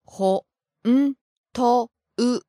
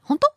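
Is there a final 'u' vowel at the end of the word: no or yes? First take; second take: yes; no. First: The word ends with an added final u sound. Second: The word ends on o with no final u. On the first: This is the standard form. "What's the correct standard pronunciation for this word?" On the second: This is the casual form. "In a casual situation"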